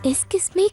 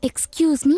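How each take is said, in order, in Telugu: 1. మొదటి పదాన్ని 'eskis' లాగా అంటారు. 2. మొదటి పదాన్ని 'ekskyooz' లాగా అంటారు. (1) "అయ్యో ఎస్కిస్ మీ కాదు" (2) "ఎక్స్క్యూజ్ మీ అనాలి"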